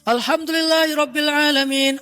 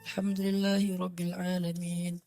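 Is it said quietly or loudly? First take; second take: loudly; quietly. First: It is shouted loudly, as Umar. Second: It is said quietly, as Abu Bakar.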